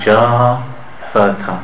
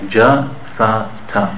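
First: The three vowels are held for different lengths. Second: All three vowels are held the same length. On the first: The speaker calls it wrong. "We shouldn't say ja, sa, ta" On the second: The speaker calls it right. "we want to pronounce each vowel the same length"

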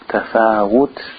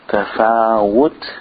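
The two takes are said the same way.

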